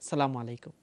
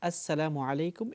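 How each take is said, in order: First: The greeting is shortened, dropping as- and -u. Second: The greeting is said in full, with as- and -u. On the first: The speaker calls it wrong. "এটা হচ্ছে অশুদ্ধ উচ্চারণ হয়েছে" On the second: The speaker calls it right. "এটাই হচ্ছে কারেক্ট উচ্চারণ, শুদ্ধ উচ্চারণ"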